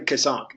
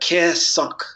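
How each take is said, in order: First: The name is said in a plain, ordinary voice. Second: The name is said higher and more resonantly. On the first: The speaker calls it wrong. "you wouldn't say my name Kasank" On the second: The speaker calls it right. "it would be really like of a higher frequency"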